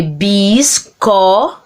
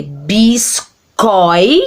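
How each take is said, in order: First: Bisco broken as bis, co, leaving the I off; wrong syllable split. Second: Biscoi slowly broken as bis, coi; correct syllable split. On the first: Teacher showing a forbidden word break, bisco split after the O. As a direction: say bisco in two separate syllables, ending on O. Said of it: "Você não pode, por exemplo, escrever". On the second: Teacher showing the correct word break, biscoi slow in two syllables. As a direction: keep O and I together at the end of biscoi. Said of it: "Tem que ser". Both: Shown as a demonstration.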